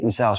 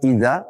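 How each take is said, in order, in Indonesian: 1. Konsonan tengahnya adalah bunyi 's' yang biasa. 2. Konsonan tengahnya adalah bunyi 'dh' yang lembut. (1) "membaca semuanya dengan sin" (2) "mana dzal"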